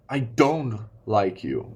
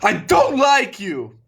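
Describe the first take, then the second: First: The sentence is only a little louder than normal. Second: The sentence is shouted very loudly. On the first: "It can just be ten percent, twenty percent louder" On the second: "It doesn't have to be about screaming"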